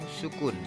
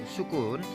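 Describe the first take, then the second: The two takes are said the same way.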